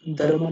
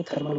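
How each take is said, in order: First: "Thermal" said dar-mal, dental d first; wrong d sound. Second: "थर्मल" starting with aspirated th; correct th sound. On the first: Teacher showing the mistake, d-for-th mispronunciation. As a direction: say "Thermal" with voiced d for th. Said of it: "Thermal नहीं बोलेंगे". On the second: Teacher giving the right thermal, th pronunciation. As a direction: say "थर्मल" as thar-mal. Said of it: "थर्मल बोलेंगे". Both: Shown as a demonstration.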